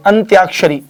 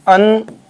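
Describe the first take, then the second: First: Said in the usual way. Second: अंत्याक्षरी split as अन, pause, त्याक, क्षरी; broken into syllables. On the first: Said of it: "जी बिल्कुल सही है". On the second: Shown as a demonstration. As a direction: sound out अंत्याक्षरी piece by piece. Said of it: "अब देखिए यहाँ पर". (अंत्याक्षरी को टुकड़ों में रुक-रुककर)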